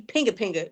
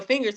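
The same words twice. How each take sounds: First: "Pinga, pinga" with the F turned into P; baby mispronunciation. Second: Said in the usual way. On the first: Retold or imitated. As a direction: say "Pinga, pinga" like a toddler attempting "fingers". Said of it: "he used to say". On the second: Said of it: "you'd be like".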